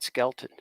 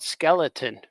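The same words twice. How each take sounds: First: "Skeleton" squeezed into SKEL-tin; dropped middle syllable. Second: "Skeleton" in three clear syllables; son's full pronunciation. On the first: Shown as a demonstration. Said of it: "but I call it Skeleton". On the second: Retold or imitated. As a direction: say "Skeleton" in full as skel-uh-ton. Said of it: "my son says, "Dad, you're, it's called Skeleton".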